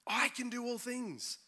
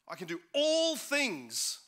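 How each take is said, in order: First: The word I is stressed. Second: The word all is stressed. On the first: The focus is on the speaker's own ability. "the emphasis is on the fact that I" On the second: The focus is on doing absolutely everything. "It's about all"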